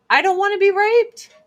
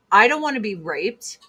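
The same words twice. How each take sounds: First: High, loud, insistent cry of refusal; emphatic higher louder repeat. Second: Said in the usual way. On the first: Real, not acted. High loud repeat to her viewers. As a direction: says it again much higher and louder to viewers.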